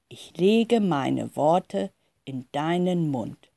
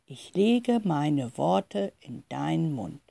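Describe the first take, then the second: First: Slow, measured quote of the voice. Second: Soft, slow repetition; quiet. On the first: Jeremia retells the voice's words, slow and measured. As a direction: give each word time, unhurried. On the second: The mother repeats Jeremia's words, quiet and slow. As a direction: repeat it softly, taking your time over it. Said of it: "die Mutter wiederholt nochmal leise". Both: A narrator's reading.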